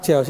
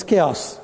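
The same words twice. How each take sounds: First: "chaos" said with a ch as in chair; mispronounced chaos. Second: "chaos" said with a hard k, kay-os; correct chaos. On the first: Trainer rejecting the mistake, "chaos" with a ch as in chair. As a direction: say "chaos" wrongly, starting "ch" like church. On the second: Trainer correcting learners, "chaos" pronounced kay-os. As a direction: start "chaos" with a k sound. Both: Shown as a demonstration. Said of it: "Not chaos. It's chaos".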